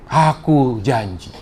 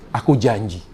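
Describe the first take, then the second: First: "Aku janji" drawn out very slowly, each word weighed; slow solemn promise. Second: Said in the usual way. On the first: Acted. Allah repeating his promise to Muhammad, slow and solemn.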